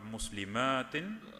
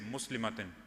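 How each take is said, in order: First: The vowel before the t is long. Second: The vowel before the t is short. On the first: It refers to three or more people. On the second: It refers to one person.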